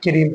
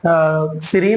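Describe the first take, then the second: First: The word begins with a k sound. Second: The word begins with an s sound. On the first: The speaker calls it right. "बल्कि क्रीम पढ़ेंगे" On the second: The speaker calls it wrong. "तो हम सीरीम नहीं"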